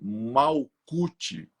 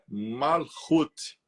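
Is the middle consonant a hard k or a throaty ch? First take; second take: hard k; throaty ch. First: The middle consonant is a hard k sound. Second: The middle consonant is a throaty ch sound. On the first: This is how the name is written. The speaker calls it wrong. "que nós escrevemos, o nome dela é Malkut" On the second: This is how the name is actually pronounced. The speaker calls it right. "mas a pronúncia é Malchut"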